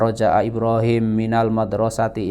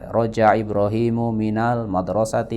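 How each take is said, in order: First: The name ends on the consonant m. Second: The name ends with a short u vowel. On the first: The speaker calls it wrong. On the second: The speaker calls it right.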